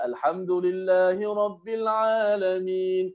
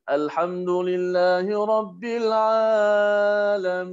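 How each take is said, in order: First: The vowel after the 'ain has normal length. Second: The vowel after the 'ain is stretched extra long. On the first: The speaker calls it right. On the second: The speaker calls it wrong. "Dia panjangkan ain sikit daripada biasa"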